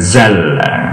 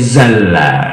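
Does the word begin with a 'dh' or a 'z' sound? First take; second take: z; z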